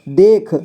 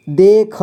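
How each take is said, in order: First: Said in the usual way. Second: देख split as दे, ख; syllable by syllable. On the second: Shown as a demonstration. Teacher showing learners देख, sounded out in parts. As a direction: sound out देख with a vowel after ख. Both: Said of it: "इसे पढ़ेंगे".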